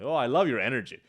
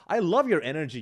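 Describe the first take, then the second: First: It sounds flat and sarcastic. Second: It sounds warm and sincere.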